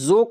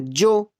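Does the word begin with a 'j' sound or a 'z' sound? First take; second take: z; j. First: The word begins with a 'z' sound. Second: The word begins with a 'j' sound. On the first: The speaker calls it right. "अब ज़ो को जो तो नहीं बोल सकते ना" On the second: The speaker calls it wrong. "जो तो नहीं बोल सकते ना"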